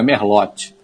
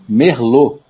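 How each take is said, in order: First: Merlote with the t sounded as "tchi"; wrong pronunciation. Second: Merlot with silent t, "mer-lô"; correct French pronunciation. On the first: Expert shows listeners the mistake, sounding Merlote's t. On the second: Expert teaches listeners, Merlot the French way. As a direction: end Merlot on a stressed "lô". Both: Shown as a demonstration. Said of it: "não é Merlote".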